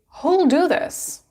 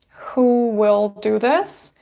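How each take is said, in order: First: Will is contracted and joined onto who. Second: The word will is said in full. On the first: "You can say who'll do this" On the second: "instead of saying who will do this"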